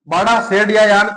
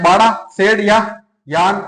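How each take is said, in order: First: बाड़ा, शेड या यान said slowly, word by word; slow teaching repeat; slow spelled out. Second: Said in the usual way. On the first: Shown as a demonstration.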